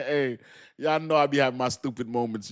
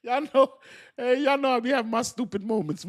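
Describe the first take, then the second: First: Said in the usual way. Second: High, giggly admission; sheepish laughing voice; laughing confession. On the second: Real, not acted.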